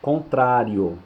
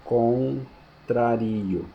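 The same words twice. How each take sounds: First: Contrário stressed on trá; accented contrário. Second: Contrario very slow, stressed on ri; unaccented contrario, drawn out. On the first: Teacher reading the accented word: Contrário on trá. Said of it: "se eu tirar o acento". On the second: Teacher slowly demonstrating the verb form: contrario on ri. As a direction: stretch contrario out slowly, putting the weight on ri. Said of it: "se eu tirar o acento, fica". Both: Shown as a demonstration.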